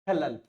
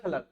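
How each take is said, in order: First: The word ends with a plain L sound. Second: The word ends with a retroflex flap sound. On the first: It means obstruction. "कोई अंग्रेज या अन्य व्यक्ति आता ... वो बोलता इसे खलल" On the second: It means care or concern. "ये हम राजस्थानी वाले ही बोल सकते हैं। इसको हम बोलेंगे खलड़ खलड़"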